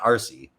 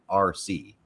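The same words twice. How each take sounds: First: It is said as one run-together name. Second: It is said as two separate letters. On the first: It is an ordinary name. "not R C" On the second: It stands for remote controlled. "I always pronounced it just like R C"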